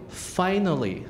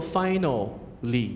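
First: "finally" said normally, as the reference; model word. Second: Very slow "finally" with a doubled l, "final-ly"; wrong, stretched. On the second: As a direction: drag the l out, as the error. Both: Shown as a demonstration. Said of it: "不要念作".

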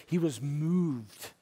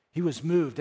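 First: "He was moved" said slowly and quietly, dwelling on it; slow, soft emphasis. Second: "He was moved" said firmly, with a fall on "moved"; firm emphasis. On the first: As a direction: let "moved" sink in gently, drawn out. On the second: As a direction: land hard on "moved". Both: Shown as a demonstration. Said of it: "repeated for emphasis".

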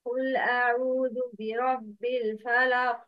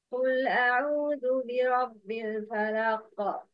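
First: Chanted verse, the final ق of "الفلق" stopped dead; recitation without qalqala. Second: Chanted verse, the final ق of "الفلق" released with an echo; recitation with qalqala. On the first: Teacher giving students option one, chanted with no bounce on the ق of "الفلق". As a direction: recite evenly, end "الفلق" on a q with no echo. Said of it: "choose the correct pronunciation". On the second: Teacher giving students the correct option, chanted with an echoing ق in "الفلق". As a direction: recite evenly, bounce the q ending "الفلق". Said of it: "It's number two".

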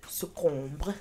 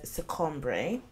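First: "succombre" ending in a closed "-ombr", no final vowel; French pronunciation. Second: "succombre" with the final e sounded as "-bray"; Latin pronunciation. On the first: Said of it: "derives from the French word". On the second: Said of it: "itself from the Latin word". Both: Shown as a demonstration.

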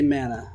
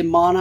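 First: "mana" said MAN-uh; own pronunciation. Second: "mana" said MAH-nuh; other people's pronunciation. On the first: Player choosing own version, "mana" as MAN-uh. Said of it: "I'll say mana". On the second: Player quoting how others say it, "mana" as MAH-nuh. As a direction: say "mana" with a broad ah. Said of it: "You say mana". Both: Shown as a demonstration.

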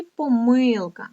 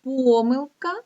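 First: Помилка stressed on МИЛ, drawn out; stress on second syllable. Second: Помилка stressed on ПО, drawn out; stress on first syllable. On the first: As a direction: stretch the middle syllable of помилка. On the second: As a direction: stretch the opening syllable of помилка. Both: Shown as a demonstration. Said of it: "може наголошуватися так".

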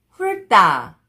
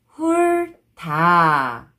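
First: 훑다 run together as 훌따, tense tt; read together. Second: 훑다 slowly split as 훌, pause, 다; syllable by syllable. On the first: Teacher shows how it reads together, linked pronunciation. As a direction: join 훑다 with a hard 따. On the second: Teacher breaking a word down for learners, syllable by syllable. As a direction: stretch each syllable of 훑다 separately. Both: Shown as a demonstration. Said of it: "When you read it together".

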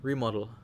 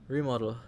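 Both takes have the same delivery.

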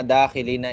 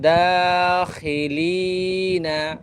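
First: দাখিলিনা said quickly with no lengthening; clipped wrong madd. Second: দাখিলিনা drawn out long on the vowel; elongated madd. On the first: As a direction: rush দাখিলিনা skipping the madd. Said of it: "শুদ্ধভাবে পড়ে না, আদায় করে না". (দাখিলিনা মদ ছাড়া দ্রুত) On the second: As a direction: stretch দাখিলিনা one alif. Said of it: "মদগুলা কীভাবে এক আলিফ লম্বা করে পড়তেছি". (দাখিলিনা মদ টেনে পড়া) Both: Shown as a demonstration.

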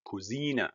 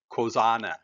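First: "cousina" said with a long EE, koo-ZEE-na; correct German pronunciation. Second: "cosana" said with an AH in the middle, koh-ZAH-na; mispronunciation to avoid. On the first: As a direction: model "cousina" softly, stressed on ZEE. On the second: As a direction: demonstrate the mistaken "cosana", stressed on ZAH. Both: Shown as a demonstration. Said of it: "not cosana".

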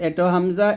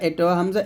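No difference in how they are said.

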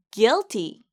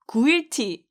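First: "Guilty" in two syllables, "gil-tee"; silent U. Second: "구일티" with an extra "gu" syllable before "il-ti"; U wrongly sounded. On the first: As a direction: say "Guilty" with no U sound after the G. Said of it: "유가 없다고 생각하시고 발음". ("Guilty"를 U 없이 '길티' 두 음절로) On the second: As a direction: mispronounce guilty as three syllables, gu-il-ti. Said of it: "구일티 아니에요". ("구일티"처럼 U를 살린 틀린 발음) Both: Shown as a demonstration.

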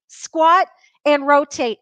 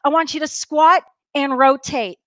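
First: "Squat and rotate" spelled out slowly, "squat" leaned on; slow, stressed "squat" with a falling finish; slow coaching cue. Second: Said in the usual way. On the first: Shown as a demonstration. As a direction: drill the cue word by word.

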